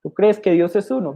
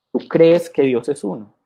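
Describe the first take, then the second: First: Mock-innocent question pitched higher; sarcastic. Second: Said in the usual way. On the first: Preacher voicing James mocking believers, sarcastic question. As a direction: ask it with a sarcastic smirk. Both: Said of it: "Santiago sarcásticamente dice".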